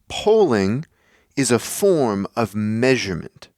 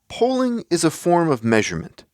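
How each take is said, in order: First: It is said with strong, dramatic emphasis. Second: It is said plainly, without added emphasis.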